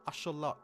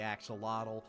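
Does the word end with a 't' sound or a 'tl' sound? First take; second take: t; tl. First: The word ends with a plain t sound. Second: The word ends with a tl sound. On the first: This follows the original native pronunciation. "if you want to pronounce it like the native zoo" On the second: This is the usual American pronunciation. "I'm a dirty American, so I'm just going to call it the axolotl"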